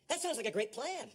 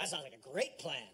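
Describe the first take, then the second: First: It is said in a sincere tone. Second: It is said in a sarcastic tone. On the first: The plan seems good. The speaker calls it right. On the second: The plan seems bad. The speaker calls it wrong.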